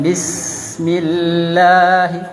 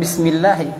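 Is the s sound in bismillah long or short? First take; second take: long; short. First: The s sound is held slightly longer. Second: The s sound is short and clipped. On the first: The speaker calls it right. "itu sanya panjang sedikit" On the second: The speaker calls it wrong. "jadi bukan bismillah"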